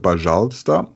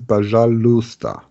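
First: The U sound is reduced and barely heard. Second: The U sound is clearly heard. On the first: "man hört ja oft so пожалуйста" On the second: "es ist wirklich dieses пожалуйста. Das U ist hörbar"

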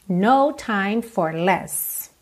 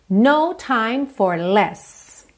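The two takes are said the same way.

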